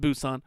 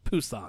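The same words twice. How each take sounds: First: The name starts with a B sound. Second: The name starts with a P sound. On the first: This is how the name is spelled. "It's spelled Busan" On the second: This is how people near the city say it. "It's a P"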